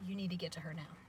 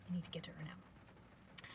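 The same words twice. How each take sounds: First: Said in the usual way. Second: Very soft, urgent-message whisper; whispered warning. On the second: Retold or imitated. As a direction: repeat the instruction in a hush. Boy's warning repeated in a whisper.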